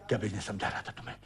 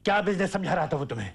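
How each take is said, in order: First: Very low, soft and rapid; stunned muttering. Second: Fast question at full voice; sharp demand. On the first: Father questioning his son, low hurried mutter. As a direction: let the question slip out under the breath. First take, under his breath. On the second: Father demanding an answer from his son, sharp and rapid. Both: Acted.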